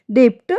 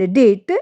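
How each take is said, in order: First: डेप्ट with the b sounded as p; wrong pronunciation. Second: डेट with no b; silent b. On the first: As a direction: sound the middle consonant in डेप्ट. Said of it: "ये हमारा wrong है". (गलत उच्चारण डेप्ट) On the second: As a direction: say डेट, drop the b. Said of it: "ये right है क्योंकि इसमें बी silent". (सही उच्चारण डेट, बी silent) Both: Shown as a demonstration.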